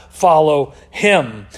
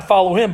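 First: "him" drawn out slow and low; slow right down and land on "him"; stress on HIM. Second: Said in the usual way. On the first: Acted. Elijah challenging the people over Baal, stress on "him". Reads the two options in contrast.

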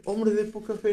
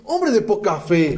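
First: Wrong way. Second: "hombre de poca fe" slow and weighty, stress on hombre; right way. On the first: Preacher showing how Jesus did not say it, soft and offhand. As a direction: toss "hombre de poca fe" away softly. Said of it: "ni siquiera fue de". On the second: Preacher showing how Jesus really said it, slow and firm. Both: Shown as a demonstration.

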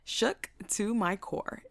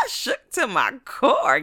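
First: Slow repeat at normal volume; measured emphasis. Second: Loud, drawn-out, higher exclamation; comic emphasis. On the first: Storyteller underlining how shaken she was, slow and measured. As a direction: spell it out slowly, word by word. Repeats the phrase less loudly. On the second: Storyteller exaggerating how shaken she was, loud and drawn out. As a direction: belt it out slowly, stretching CORE. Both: Retold or imitated.

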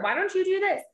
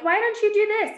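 First: Mock nagging. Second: Much higher, pushy mock question; mock nagging. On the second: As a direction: parody the people nagging her. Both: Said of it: "people are like".

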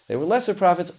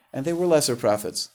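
First: "lesser" pitched much higher and louder, falling after; stress on lesser. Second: Said in the usual way. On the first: Shown as a demonstration. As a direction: lean hard on "lesser" to mock the idea.

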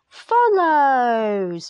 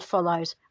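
First: "follows" hugely stretched out; exaggerated, very slow stress on "follows"; emphasis on FOLLOWS. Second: Said in the usual way. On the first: Shown as a demonstration. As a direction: drag out "follows" with a long falling tail. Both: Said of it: "Just emphasis on the word follows".

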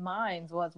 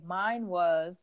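First: "Mine's" with a soft s tacked on; wrong "Mine's was". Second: "Mine was" with plain "mine", no s; correct "Mine was". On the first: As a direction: slip an s onto "Mine's". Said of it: "but I said". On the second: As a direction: say "Mine" with no s at the end. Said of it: "I was supposed to say". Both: Shown as a demonstration.

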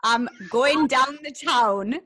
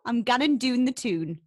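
First: Slow, loud, "down the town" in standard vowels; translated out of dialect. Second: Loud, broad Geordie; Geordie accent. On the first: Geordie host explaining to the guest, slow clear "down the town". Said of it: "do you know what that means?". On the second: Geordie host demonstrating for the guest again, broad Geordie accent. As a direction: model the Geordie vowels in "doon" and "tune". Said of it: "Go on, you have a go". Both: Shown as a demonstration.

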